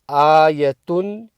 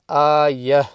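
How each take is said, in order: First: The word ends with a vowel and n sound. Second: The word ends with a soft h sound. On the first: The reader continues without stopping. The speaker calls it wrong. "instead of saying ayatun" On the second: The reader stops at this word. The speaker calls it right. "So when you stop, ... you say ayah"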